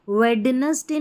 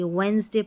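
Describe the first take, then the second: First: The d in the middle is pronounced. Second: The d in the middle is silent. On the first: The speaker calls it wrong. "इसको वेडनेसडे नहीं पढ़ेंगे" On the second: The speaker calls it right. "वेंसडे पढ़ेंगे"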